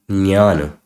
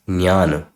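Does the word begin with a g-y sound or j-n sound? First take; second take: j-n; j-n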